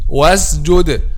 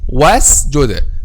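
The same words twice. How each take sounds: First: The consonant before j sounds like z. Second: The consonant before j is a clear s. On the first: The speaker calls it wrong. "Some people pronounce this letter as if it is letter zay" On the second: The speaker calls it right. "the correct pronunciation of letter of this word"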